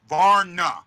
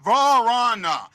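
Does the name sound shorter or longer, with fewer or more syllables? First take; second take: shorter; longer. First: The name is clipped short with fewer vowels. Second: The name is drawn out with an extra vowel. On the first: The speaker calls it right. "It's Varna. It's one syllable" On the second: The speaker calls it wrong. "It's not Varana. You guys are saying it almost like it's two syllables"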